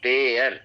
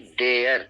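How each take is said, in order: Both takes have the same delivery.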